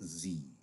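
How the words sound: The letter name is said the American way. "Americans pronounce it Z"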